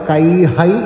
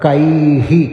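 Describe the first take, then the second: First: The word ends with an ai vowel sound. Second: The word ends with a short i sound. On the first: The speaker calls it wrong. "കൈഹൈ എന്നല്ല പറയേണ്ടത്" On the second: The speaker calls it right.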